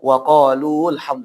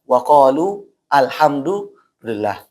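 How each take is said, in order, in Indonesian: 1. Kedua kata itu disambung. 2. Kedua kata itu dipisah. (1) "kalau disambung dia enggak boleh" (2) "ini harus dipisah"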